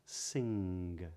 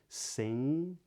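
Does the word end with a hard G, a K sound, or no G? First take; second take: hard G; no G. First: The word ends with a hard G sound. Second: The word ends without a hard G sound. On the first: "but not" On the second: "they do not pronounce a hard G at the ends of these words"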